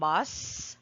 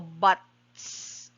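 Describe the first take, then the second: First: The final s sound is plain, with no stop. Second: A brief stop comes before the final s. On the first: "instead of saying bus" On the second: "there is a stopping before the S"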